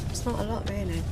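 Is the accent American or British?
British. It is spoken in a British accent. The speaker calls it wrong. "Sorry, I went out of character for a moment"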